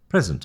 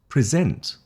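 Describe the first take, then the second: First: The stress is on the first syllable. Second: The stress is on the last syllable. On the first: It is a noun meaning a gift. "the emphasis on the noun is in the beginning" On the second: It is a verb meaning to give formally. "the emphasis on the verb is at the last syllable"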